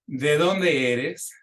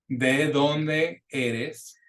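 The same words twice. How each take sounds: First: Slow with a rising question tune; "dónde" stressed, E like bet; slow model question. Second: Drawn out very slowly, rising at the end; "eres" with short pure E; very slow repeat. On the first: Teacher models a question for repeating, slow and rising. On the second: Teacher repeats the question for students, very slow. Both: Shown as a demonstration. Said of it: "the Spanish E".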